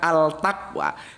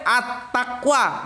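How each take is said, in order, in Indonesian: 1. Artikelnya diucapkan sebagai 'al' biasa. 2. Artikelnya menyatu dengan bunyi t. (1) "bukan Al Taqwa" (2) "Kalau menurut gue At Taqwa"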